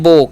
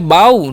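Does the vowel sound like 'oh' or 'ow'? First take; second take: oh; ow. First: The vowel sounds like 'oh' in go. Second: The vowel sounds like 'ow' in cow. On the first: The speaker calls it right. "ओ का उच्चारण यहाँ पर ओ ही करना है" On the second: The speaker calls it wrong. "बाऊ नहीं"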